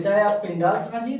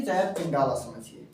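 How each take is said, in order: First: पिंडाल said with no final vowel; short name form. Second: पिंडाला said with a long final a; long name form. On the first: Teacher offers both spellings of the cave name, पिंडाल first. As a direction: end पिंडाल on the l, nothing after it. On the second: Teacher offers both spellings of the cave name, पिंडाला second. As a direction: stretch पिंडाला out to a long a at the end. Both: Shown as a demonstration.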